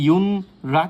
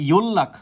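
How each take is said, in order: First: An n sound is followed by an r sound. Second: The n becomes l, giving a double l. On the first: The speaker calls it wrong. "এটা কিন্তু ইয়ন রাক উচ্চারিত হবে না" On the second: The speaker calls it right. "এটা উচ্চারিত হবে ইয়োল্লাক"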